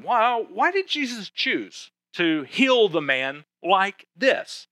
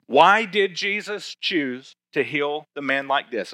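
First: Slow, rising, wondering question; puzzled listener's question. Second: Said in the usual way. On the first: Retold or imitated. Pastor voicing a curious listener's question, slow and rising. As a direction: voice the congregation's puzzlement. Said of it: "you might be wondering". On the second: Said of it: "here's the answer I have for you".

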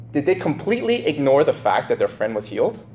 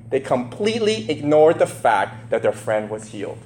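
First: "ignore" asked with a rising, doubtful tune; rising question. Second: "ignored" stated with a falling, firm tune; flat statement. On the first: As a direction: pose it as a real question to the listeners. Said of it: "rhetorical question". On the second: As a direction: settle it as the answer. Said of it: "answer restating question". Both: Shown as a demonstration.

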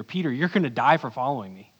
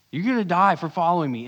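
First: Said in the usual way. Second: The warning again, louder and higher; louder, emphatic repeat. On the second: Retold or imitated. Jesus repeating his warning to Peter, louder and higher. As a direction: press the line home the second time. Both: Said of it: "Jesus just said to Peter".

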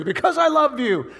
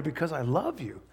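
First: High, loud declaration. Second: Soft, tender declaration. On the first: Loud climax of the refrain. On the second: Refrain drops to soft. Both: Acted.

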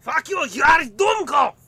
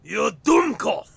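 First: High, shouted mock German insult. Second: Slow, loud mock German insult; mock German accent. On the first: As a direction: yell it at full force. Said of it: "Wrong evil empire". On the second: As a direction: spit out the insult, slowly. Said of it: "No, wait, that's wrong".

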